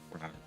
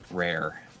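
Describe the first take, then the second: First: The word rhymes with 'car'. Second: The word rhymes with 'air'. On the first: This is probably the proper pronunciation. The speaker calls it right. "I assume that it's actually probably RAR" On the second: This is the speaker's habitual pronunciation. The speaker calls it wrong. "I was always said rare"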